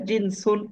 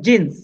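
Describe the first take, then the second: First: The word ends with an added '-un' ending. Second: The word ends on the consonant, no ending. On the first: "শেষের অক্ষরে হরকত দিয়ে পড়লে" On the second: "খুব সহজে শর্টে পড়তে চাই"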